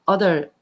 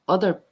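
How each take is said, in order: Both takes have the same delivery.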